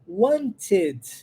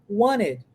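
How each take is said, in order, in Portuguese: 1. O som do T depois do N é claramente pronunciado. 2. O T é omitido e o N se liga à vogal. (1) "é a pronúncia correta, bonitinha" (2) "Omito o som do T, linko o N no E"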